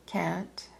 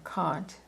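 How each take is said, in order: First: "Kant" with the flat a of "cat"; "Kant" as KANT, short front a; Kant pronounced "can't". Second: "Kant" with the open ah of "father"; "Kant" with a back, open a; Kant pronounced "kahnt". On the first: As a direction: say "Kant" to rhyme with "pant". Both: Shown as a demonstration. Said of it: "some people pronounce his name".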